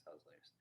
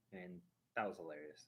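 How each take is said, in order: First: That was hilarious whispered, much softer, breath only. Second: Said in the usual way. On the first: Real, not acted. Repeating the funny memory to the stream, whispered aside.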